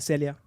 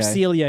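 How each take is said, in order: First: The name is said in a French way. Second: The name is said in an American way.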